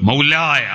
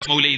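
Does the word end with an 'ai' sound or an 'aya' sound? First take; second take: aya; ai. First: The word ends in a full 'aya' sound. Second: The word ends in a short 'ai' sound. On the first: The speaker calls it right. "മൗലായ അള്ളാഹുവിനെ വിളിക്കുന്നതാണ്" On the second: The speaker calls it wrong. "മൗലൈ എന്ന് പറയണ്ട, അതൊരു അതപേട് പോലെ തോന്നുന്നു"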